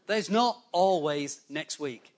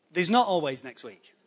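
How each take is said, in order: First: "not always next week" slowly spaced out; slow, pointed repeat. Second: Said in the usual way. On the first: Real, not acted. Preacher drives the warning home to the congregation, slow and deliberate.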